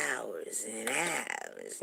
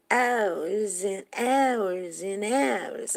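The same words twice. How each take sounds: First: Slow, stretched "hours and hours"; drawn-out boast. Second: High, very slow sung line. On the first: Friend boasting about her man's lovemaking, drawn out. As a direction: stretch out each "hours" as an imitated brag. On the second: Quoting that song about making love, sung. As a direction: croon each "hours" long and high. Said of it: "You know that song". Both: Retold or imitated.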